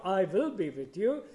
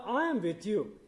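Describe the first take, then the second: First: Said in the usual way. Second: "I" pitched up and weighted, "am with you" falling away; stress on I. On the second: Shown as a demonstration. Preacher stressing to the congregation who is present, emphatic "I". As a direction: lean hard on "I" as the promise. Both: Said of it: "the word "I" is emphatic".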